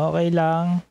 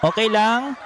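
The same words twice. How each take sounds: First: Mimicking the owner. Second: High, bright mock of the owner's Tagalog; mimicking the owner. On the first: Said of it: "Sabi niya". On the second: Vlogger quoting the restaurant owner's Tagalog, high mock voice. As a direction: echo the owner's surprise Tagalog line, lifted high. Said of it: "Sabi niya lang".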